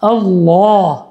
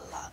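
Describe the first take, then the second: First: The word is said full-mouthed and weighty. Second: The word is said thinly and carelessly. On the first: The speaker calls it right. "তার নামটাও আজিম নিতে হবে, এরকমই" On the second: The speaker calls it wrong. "অমনোযোগিতার সাথে বাচ্চাদের মতো ... এটা না"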